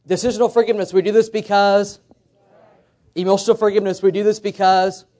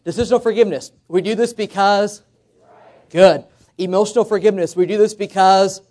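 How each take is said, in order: First: Call and response. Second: Louder, fired-up call; preacher calling for a loud response; like we mean it. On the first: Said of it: "let's try this". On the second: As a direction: rouse the room to shout it back. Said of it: "say it like we mean it". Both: Shown as a demonstration.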